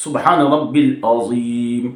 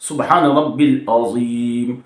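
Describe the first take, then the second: First: The middle word has two syllables, rab-bil. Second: The middle word has two syllables, rab-bil.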